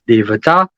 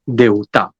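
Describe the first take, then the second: First: The middle has a clear v sound. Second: The middle has a u vowel, no v. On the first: This is the spelled, formal form. "even though it's spelled D E V A T A A" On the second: This is the everyday spoken form. "you'd hear it in the conversational speech and not formal speech as Deuta"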